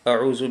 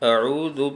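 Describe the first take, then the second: First: The middle consonant is a buzzing z sound. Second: The middle consonant is a soft dh sound. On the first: The speaker calls it wrong. "ज़ाल की जगह पर ज़ा पढ़ दिया जाता है। ... जो कि सही नहीं है, बिल्कुल गलत है।" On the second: The speaker calls it right. "तो हमें इसी तरह से पढ़ना है।"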